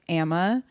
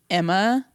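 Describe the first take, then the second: First: The first vowel sounds like 'ah'. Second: The first vowel sounds like 'eh'. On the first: This is the name's actual pronunciation. The speaker calls it right. "but it's like Amma" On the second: The name is being said carelessly. The speaker calls it wrong. "he pronounces it like Emma"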